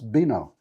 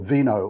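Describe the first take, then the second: First: The word begins with a B sound. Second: The word begins with a V sound. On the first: The speaker calls it right. "Actually, it's pronounced vino" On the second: The speaker calls it wrong. "here am I asking for vino all the time"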